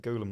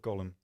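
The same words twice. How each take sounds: First: "golem" with a long OH, as GOH-lum; "golem" rhyming its first part with "go"; odd pronunciation of golem. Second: "golem" with a short O, as GOLL-um; "golem" with the short vowel of "doll"; alternative pronunciation of golem. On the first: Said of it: "said golem like that instead of golem". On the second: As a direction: say "golem" like "gollum". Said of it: "like that instead of golem". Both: Shown as a demonstration.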